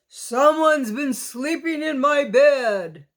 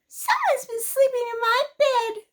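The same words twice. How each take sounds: First: It is said in a great big voice. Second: It is said in a wee little voice. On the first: "growled in a great big voice" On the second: "said in his wee little voice"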